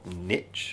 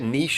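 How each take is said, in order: First: It is said in an American way. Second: It is said in a non-American way.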